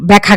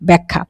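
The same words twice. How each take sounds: First: The middle kh sound is short and single. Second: The middle kh sound is held and doubled. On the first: The speaker calls it wrong. "ব্যাখ্যা কিন্তু বলি না" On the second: The speaker calls it right. "পরে কিন্তু আমরা খা বলি, খা খা, এরকম একটা ডাবল উচ্চারণ"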